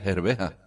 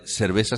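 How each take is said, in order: First: The consonant before the last vowel is throaty. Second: The consonant before the last vowel is hissing.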